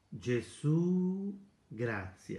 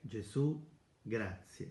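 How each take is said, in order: First: It is said slowly and deeply. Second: It is said quickly and deeply.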